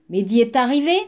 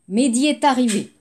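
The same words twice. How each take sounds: First: The voice rises at the end. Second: The voice falls at the end. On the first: It asks a question. "Et interrogative" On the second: It states a fact. "la phrase déclarative"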